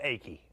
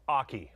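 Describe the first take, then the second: First: The name sounds like the word achy. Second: The name rhymes with hockey. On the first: The speaker calls it wrong. "but I said Aki" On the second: The speaker calls it right. "like in hockey"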